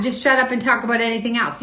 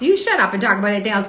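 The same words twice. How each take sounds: First: Said in the usual way. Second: "You" hit hard, the rest rushed out fast; stress on You. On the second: Real, not acted. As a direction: fire "You" straight back at the commenter, quickly. Throws the comment back, fast.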